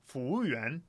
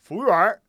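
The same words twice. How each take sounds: First: It is said in a standard Mandarin accent. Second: It is said in a Beijing accent.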